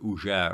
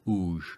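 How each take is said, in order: First: The word is said with two syllables. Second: The word is said with one syllable. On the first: "the word уже" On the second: "you just chop off that second syllable"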